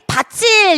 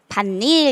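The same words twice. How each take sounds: First: The final t turns into a ch sound. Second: The d becomes n, giving a double n. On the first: The second part would be a grammatical ending. The speaker calls it wrong. "만약에 밭일에 이 일이 형식 형태소라면 어떻게 가져야지? 밭일 이렇게 발음이 돼야 되거든요" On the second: The second part is a word with its own meaning. The speaker calls it right. "여기에서 비음화가 일어나게 되어서 밭일 이렇게 발음이 되는 거지"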